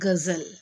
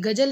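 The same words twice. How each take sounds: First: The middle consonant is a 'z' sound. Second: The middle consonant is a 'j' sound. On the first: "ज के नीचे नुक्ता लगा देंगे तो ये बन जाएगा गजल" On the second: "ये गजल लिखा है"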